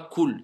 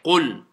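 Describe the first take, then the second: First: The first sound is a plain front k. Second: The first sound is a deep throat q. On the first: The speaker calls it wrong. "C'est pas cool" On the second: The speaker calls it right. "c'est qul"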